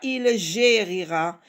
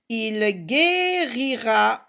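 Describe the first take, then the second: First: Guérira begins with a soft j sound. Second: Guérira begins with a hard g sound. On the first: The speaker calls it wrong. "et pas" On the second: The speaker calls it right. "pour lire gue"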